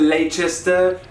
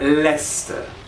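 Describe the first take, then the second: First: The word is said long, sounding out its letters. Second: The word is said short, with few syllables. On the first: The speaker calls it wrong. "It's not Leicester" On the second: The speaker calls it right. "Keep your pronunciation tight and short"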